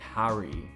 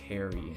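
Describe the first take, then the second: First: It is said with a British accent. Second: It is said with a Canadian accent.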